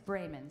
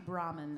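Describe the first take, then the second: First: The first vowel sounds like 'ay'. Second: The first vowel sounds like 'ah'. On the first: The speaker calls it right. "It's Brayman" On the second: The speaker calls it wrong. "I always say it wrong. I say Brahman, and that's not right"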